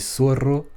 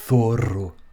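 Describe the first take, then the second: First: It begins with a hissing s sound. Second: It begins with a th sound. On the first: "comme on dirait plus euh, dans les pays, dans certains pays d'Amérique" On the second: "c'est vraiment avec le f, avec la langue entre les deux lèvres"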